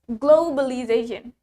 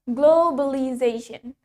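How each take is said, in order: Both takes have the same delivery.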